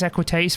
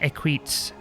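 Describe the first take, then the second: First: It is said with Latin-style sounds. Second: It is said with English-style sounds. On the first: "I think it's Equites for, for the Latin pronunciation" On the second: "might be as it's as it sounds and reads in English"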